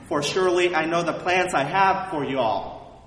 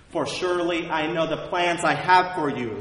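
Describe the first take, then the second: First: It is said with a slight Southern accent. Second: It is said in the speaker's usual accent.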